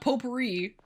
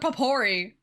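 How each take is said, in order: First: The name is said as 'po-pu-ri'. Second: The name is said as 'pa-po-ri'. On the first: The speaker calls it right. "instead of Potpourri" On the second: The speaker calls it wrong. "I would just call her Papori"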